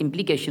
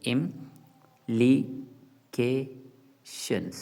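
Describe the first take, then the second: First: Said in the usual way. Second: "implications" said very slowly, syllable by syllable, im-pli-ca-tions; split into syllables. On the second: Shown as a demonstration. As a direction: break "implications" into its four syllables with clear gaps. ("implications" को धीरे-धीरे, एक-एक syllable अलग करके बोलें) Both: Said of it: "इसके चार syllables बनते हैं".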